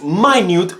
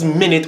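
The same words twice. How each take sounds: First: It is said as the word meaning very small. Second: It is said as the word for sixty seconds. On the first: It means very small. "which simply speaks to small" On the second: It refers to a unit of time. "which speaks to the time"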